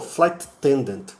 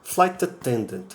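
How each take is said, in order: The two takes are said the same way.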